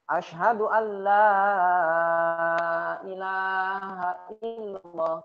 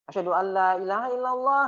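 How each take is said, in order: First: The vowel in 'la' is held long. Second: The vowel in 'la' is cut short. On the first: There is no god but God. The speaker calls it right. "kalau azan ya misalnya" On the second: Truly there is a god other than God. The speaker calls it wrong. "Kalau dibacanya pendek"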